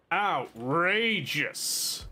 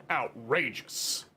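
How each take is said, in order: First: Very slow, stretched mock outrage. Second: Slow, drawn-out mock outrage. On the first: Gamer repeating his complaint, even slower and theatrical. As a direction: drag every syllable out in theatrical horror. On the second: Gamer scoffing at crafting costs, slow mock outrage. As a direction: stretch it like a scandalized aristocrat.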